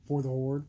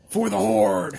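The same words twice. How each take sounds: First: It is said flatly, without conviction. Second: It is said with passion and conviction.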